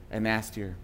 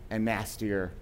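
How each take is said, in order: Both takes have the same delivery.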